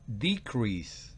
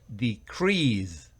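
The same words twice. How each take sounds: First: It is given the noun pronunciation. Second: It is given the verb pronunciation. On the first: It names a reduction. "Si es el sustantivo disminución se pronuncia decrease" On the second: It means to make or become smaller. "sino el verbo disminuir, no se pronuncia decrease, sino decrease"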